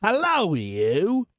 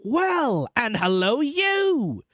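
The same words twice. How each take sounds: First: Guard's hail. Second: Hoarse call swooping high; hoarse reply. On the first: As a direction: gruffly hail a suspect stranger. Guard hails the stranger gruffly. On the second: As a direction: hail back hoarsely as Jerry. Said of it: "said Jerry, more hoarsely than before". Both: A narrator's reading.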